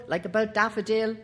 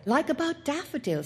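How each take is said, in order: First: Put-on the groom echoing the boy; Bassett agreeing. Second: Put-on higher boyish "like about Daffodil"; the boy citing his sure tip; boy's voice. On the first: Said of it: "Bassett answers the boy". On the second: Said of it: "said the boy". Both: A narrator's reading.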